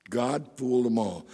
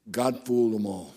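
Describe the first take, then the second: No difference in how they are said.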